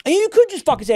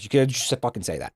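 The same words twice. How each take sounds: First: Exasperated outburst. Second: Muttered repeat. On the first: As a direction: blurt it out, exasperated at the euphemisms. Exasperated advice to viewers. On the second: Streamer repeating advice to chat, quiet muttered aside. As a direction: lower and softer, trailing off. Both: Real, not acted.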